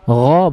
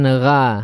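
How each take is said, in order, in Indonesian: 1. Bunyi gha berat dan terangkat. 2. Bunyi gha ringan dan tipis. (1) "gha huruf tebal" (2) "bukan gha"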